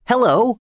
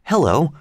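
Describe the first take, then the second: First: Sudden high, rising "Hello!"; a startled boy calling out "Hello!"; exclaimed. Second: "Hello!" rising, but less high; a milder, rising second "Hello!"; exclaimed. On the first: Twin spots something from the window, calling out high. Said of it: "suddenly exclaimed one of the twins". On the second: Twin calls the others to the window, rising. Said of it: "exclaimed one of the twins". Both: A narrator's reading.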